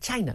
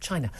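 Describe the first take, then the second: First: The word is pronounced in an exaggerated, imitated way. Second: The word is pronounced in the ordinary way. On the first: This is the way everyone must now say it. "Everyone has to now say China" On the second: This is the usual way it is said. "not China"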